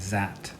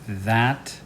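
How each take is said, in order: First: The word begins with a z sound. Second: The word begins with a voiced th sound.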